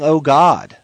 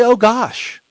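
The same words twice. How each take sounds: First: Said in the usual way. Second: Oh gosh said high and light; replacement exclamation. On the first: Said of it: "even just saying". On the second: Shown as a demonstration. Preacher modelling the better word for his listeners, said high. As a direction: chirp out Oh gosh, the wholesome swap.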